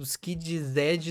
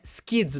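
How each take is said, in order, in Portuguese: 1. O nome termina com uma sílaba 'zee' separada. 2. O nome termina com um som de 's' simples. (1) "a pronúncia não é Skid-Z" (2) "É Skids mesmo"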